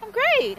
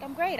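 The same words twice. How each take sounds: First: Chipper reply. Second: Said in the usual way. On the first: Retold or imitated. Cheerful answer to doctor's greeting.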